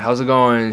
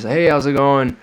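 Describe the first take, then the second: First: Said in the usual way. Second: Higher, bright friendly front-desk hello; imitating the very nice motel lady saying hello; nice clerk greeting. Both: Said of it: "She was very nice".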